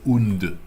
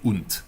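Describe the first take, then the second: First: The final consonant is a soft d sound. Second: The final consonant is a hard t sound. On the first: The speaker calls it wrong. "You don't say und" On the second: The speaker calls it right. "you say und"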